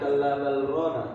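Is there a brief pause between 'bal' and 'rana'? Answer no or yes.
no. Bal and rana run together without any stop. The speaker calls it wrong. "nggak boleh dibaca seperti biasa"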